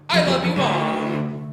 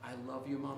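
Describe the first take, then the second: First: It is said in an angry tone. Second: It is said in a soft, sweet tone.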